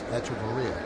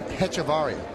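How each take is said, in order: First: The name starts without an h sound. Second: The name starts with an h sound. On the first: The speaker calls it right. "So don't pronounce the H" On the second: The speaker calls it wrong. "I was told by two people it was Hechevarria"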